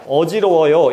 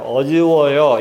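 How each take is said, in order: First: The word is articulated clearly and crisply. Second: The word is articulated in a slurred, mumbled way. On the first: This is normal speech. "이렇게 얘기하는 게 아니라" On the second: This is a possible sign of a stroke. "이런 식으로 말 발음이 어둔해지는"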